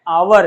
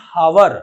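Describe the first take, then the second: First: It starts with a vowel, two syllables. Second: It starts with an h sound, two syllables. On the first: The speaker calls it right. "आवर है" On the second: The speaker calls it wrong. "बच्चे इसको गलत पढ़ते हैं"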